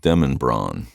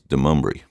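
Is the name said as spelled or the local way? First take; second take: as spelled; local way. First: The name is pronounced the way it is spelled. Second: The name is pronounced the local way. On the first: "a street in Nashville called Demonbron" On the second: "they refer to it as Demumbrian"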